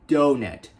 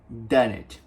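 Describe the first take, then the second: First: The first syllable sounds like English 'dough'. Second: The first syllable has a Brazilian Portuguese vowel. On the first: The speaker calls it right. "a gente chama de dough" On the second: The speaker calls it wrong. "E não donut"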